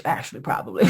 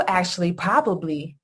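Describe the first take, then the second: First: Mocking repeat. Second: Said in the usual way. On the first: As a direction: repeat his bad English to mock it. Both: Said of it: "that's not even good English".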